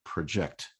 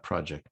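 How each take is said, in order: First: "project" stressed on the second syllable, pro-JECT; verb project. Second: "project" stressed on the first syllable, PRO-ject; noun project. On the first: Lecturer correcting to the verb "project" for students, pro-JECT. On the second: Lecturer showing the wrong noun "project" to students, PRO-ject. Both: Shown as a demonstration. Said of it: "project is a verb".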